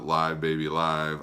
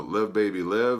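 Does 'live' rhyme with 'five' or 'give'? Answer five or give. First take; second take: five; give. First: Live is said with a long i, like five. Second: Live is said with a short i, like give. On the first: "since it is a live album, you could also pronounce it" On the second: "I believe is the proper pronunciation"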